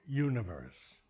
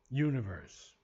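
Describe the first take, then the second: The two takes are said the same way.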